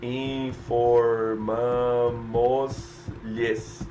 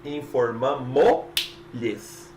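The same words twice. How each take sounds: First: "Informamos-lhes" drawn out very slowly, syllable by syllable; slow, deliberate wrong "Informamos-lhes"; wrong form demonstrated. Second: "Informamos-lhes" very slow, the first S dropped; careful slow model of the fix; corrected form demonstrated. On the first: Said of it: "você não pode dizer informamos-lhes". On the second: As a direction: stretch "Informamos-lhes" out slowly with one S. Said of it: "tira o primeiro S, só vai falar o último". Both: Shown as a demonstration.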